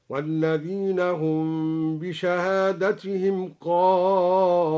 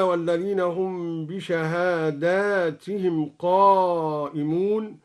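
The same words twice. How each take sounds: First: بشهادتهم said as a singular, bishahadatihim, slow; singular shahadatihim. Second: Said in the usual way. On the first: Shown as a demonstration. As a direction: recite بشهادتهم without the long plural a. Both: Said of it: "قرأ الدوري بالإفراد هكذا".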